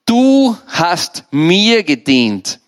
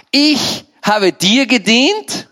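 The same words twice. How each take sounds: First: "Du" held long and strong, "gedient" falling firmly; slow verdict with weight on "Du" and "mir"; Mammon, emphatic correction. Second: "ich" high and drawn out, "gedient" rising into a question; slow, scornful disbelief on "ich habe dir gedient"; Mammon, incredulous question. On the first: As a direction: hit "Du", stretch "mir", close "gedient" downward. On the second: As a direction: throw "ich" back high, ending "gedient" on an upswing. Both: Acted. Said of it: "Weißt du, was der Mammon sagt?".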